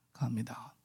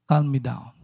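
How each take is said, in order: First: A hushed plea to calm down; whispered prayer. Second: Said in the usual way. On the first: Retold or imitated. On the plane, begging the Lord in a whisper. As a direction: breathe it in a whisper.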